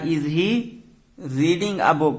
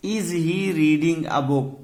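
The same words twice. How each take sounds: First: Said in the usual way. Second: Very slow, each word spaced out; slow dictation. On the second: Shown as a demonstration. Teacher reading the example to students, very slow and deliberate. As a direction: spell it out slowly for the class. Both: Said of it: "क्या वो पुस्तक पढ़ रहा है?".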